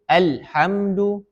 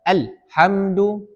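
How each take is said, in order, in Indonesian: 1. Bunyi l terputus tiba-tiba. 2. Bunyi l terputus tiba-tiba.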